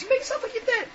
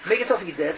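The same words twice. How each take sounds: First: Very high, squeaky little bird voice; high-pitched advice. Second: Said in the usual way. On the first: Acted. Sister bird shares her escape trick, high-pitched advice.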